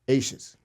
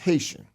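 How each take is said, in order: First: The word starts without an H sound. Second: The word starts with an H sound. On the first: The speaker calls it wrong. "that's not how you pronounce it" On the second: The speaker calls it right. "It's Haitian"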